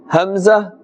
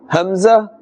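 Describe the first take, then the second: Both takes have the same delivery.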